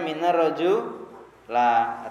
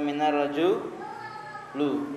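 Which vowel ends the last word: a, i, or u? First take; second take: a; u. First: The last word ends in the vowel a. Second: The last word ends in the vowel u. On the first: "jangan baca minar roju la" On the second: "atau minar roju lu"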